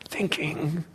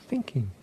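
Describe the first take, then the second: First: It is said in a harsh, impatient tone. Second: It is said in a gentle, caring tone. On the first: The speaker calls it wrong. "noticing the tone of voice" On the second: The speaker calls it right. "with as much compassion, with as much care as you can"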